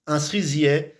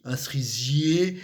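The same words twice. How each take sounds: First: "cerisier" ending on an open è, sʀizjɛ; local pronunciation. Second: "cerisier" ending on a closed é, sʀizje; standard pronunciation. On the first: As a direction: end "cerisier" on an open è sound. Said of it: "C'est E". (« cerisier » avec un è ouvert final, parler de chez nous) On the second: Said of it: "normalement, c'est I". (« cerisier » prononcé avec un é fermé final) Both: Shown as a demonstration.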